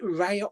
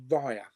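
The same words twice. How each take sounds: First: "Raya" said as RAY-uh; first pronunciation option. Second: "Raya" said as RYE-uh; second pronunciation option. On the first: Streamer unsure of film title, "Raya" as RAY-uh. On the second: Streamer offering other title reading, "Raya" as RYE-uh. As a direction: say "Raya" with first syllable like rye. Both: Shown as a demonstration. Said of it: "Is it Raya or Raya".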